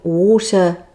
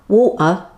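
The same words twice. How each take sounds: First: The t is pronounced as a clear t. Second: The t is replaced by a glottal stop. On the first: "instead of saying water" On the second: "the T would be a glottal stop"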